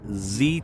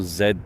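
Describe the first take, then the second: First: The letter is said the American way. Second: The letter is said the British way. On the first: The speaker calls it right. "it is a Camaro Z twenty-eight" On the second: The speaker calls it wrong. "It is not a Camaro Z twenty-eight"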